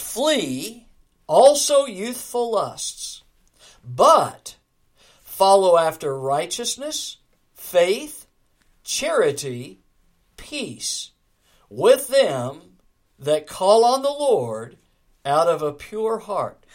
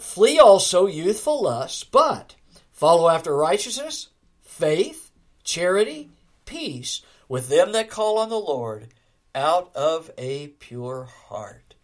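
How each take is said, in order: First: It is read at a slower, measured pace. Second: It is read at a faster, running pace.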